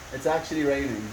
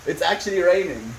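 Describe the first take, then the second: First: "It's actually raining" said softer, almost to herself; hushed wonder at the rain; softer, awed. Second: Said in the usual way. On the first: Real, not acted. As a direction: murmur it in quiet disbelief. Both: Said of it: "repeats it quieter".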